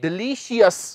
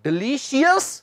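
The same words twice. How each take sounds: First: The ending is split into 'shee-us' syllables. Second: The ending is split into 'shee-us' syllables.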